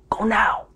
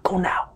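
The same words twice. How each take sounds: First: Said in the usual way. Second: Hushed urgent push; urgent whisper. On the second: Acted. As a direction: whisper it, shooing them off. Urging, shooing viewers off.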